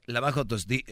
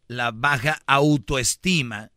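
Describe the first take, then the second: First: Said in the usual way. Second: "la baja autoestima" stretched out slowly and louder; slow, clear enunciation. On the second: Shown as a demonstration. ("la baja autoestima", dicho lento y bien marcado) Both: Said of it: "como lo digo rápido no se entiende".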